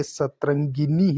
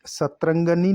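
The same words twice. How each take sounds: First: सतरंगिनी with clear "gi"; correct pronunciation. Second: सतरंगनी with "ga" before nee; wrong pronunciation. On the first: Teacher correcting the word, सतरंगिनी with gi. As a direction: say सतरंगिनी as "sat-ran-gi-nee". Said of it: "गी आएगा". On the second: Teacher showing the error, सतरंगनी with ga. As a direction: say सतरंगनी as "sat-ran-ga-nee". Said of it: "लिख रखा है". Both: Shown as a demonstration.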